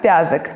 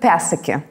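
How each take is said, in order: First: The surname is said in its short Russified form. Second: The surname is said in its longer Estonian form. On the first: This is how the name reads in Russian passports. "наша фамилия там читается не как Пязок" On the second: This is how the name reads in Estonia. "А как Пясаки"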